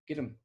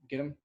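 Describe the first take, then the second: First: The word 'them' shrinks to a short 'n'. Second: The word 'them' is said in full.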